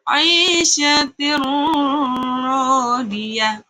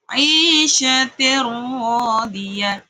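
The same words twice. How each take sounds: First: The tanwin is held with a nasal hum. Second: The tanwin merges into the r without nasal hum. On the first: The speaker calls it wrong. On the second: The speaker calls it right.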